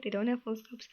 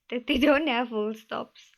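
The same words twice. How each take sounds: First: Said in the usual way. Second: A laugh breaking into the line, louder. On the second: Real, not acted. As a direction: chuckle through the words "don't have full stops". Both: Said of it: "to simplify it".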